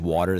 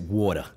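First: It is said in a standard accent. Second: It is said in a Fall River accent.

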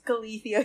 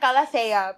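First: It is said with an American-style pronunciation. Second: It is said with a Filipino-style pronunciation. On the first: "yung mga Americans, calathea yung tawag nila" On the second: "Parang calathea"

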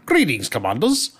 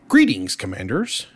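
First: It is said in a put-on Scottish accent. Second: It is said in the speaker's plain accent. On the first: "let me try a Scottish accent with it" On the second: "I won't be able to do it with his cool little Scottish accent"

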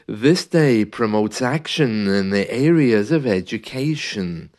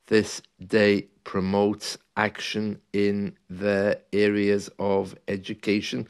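First: The words flow together in a smooth rhythm. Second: The words are separated, with breaks between them. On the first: The speaker calls it right. "joining the words together in some kind of musical rhythm. ... Doesn't that sound better?" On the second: The speaker calls it wrong. "can you imagine if that was read differently? ... painful to listen to"

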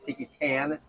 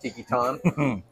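First: The name is said in a plain English way. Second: The name is said with a French-style vowel. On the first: "We were told by the employees here that it's Tiki Tan" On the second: "I kept wanting to French it up"

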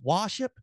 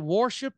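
First: The r sound in the word is dropped. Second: The r sound in the word is clearly pronounced. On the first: The speaker calls it wrong. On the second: The speaker calls it right.

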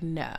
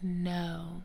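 First: It is said in a firm, final way. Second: It is said in a cute, soft way.

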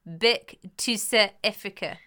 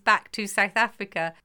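First: It is said in a South African accent. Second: It is said in the speaker's ordinary accent. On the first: "in order for me to try and do a South African accent" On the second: "the phrase I say is"

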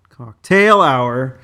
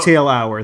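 First: The syllable 'cock' has no special emphasis. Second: The syllable 'cock' is noticeably emphasized.

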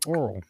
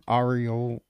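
First: The name sounds like the word 'oral'. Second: The name is said with three syllables. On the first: The speaker calls it wrong. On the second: The speaker calls it right.

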